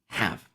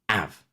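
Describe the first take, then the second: First: The word starts with an H sound. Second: The word starts without an H sound.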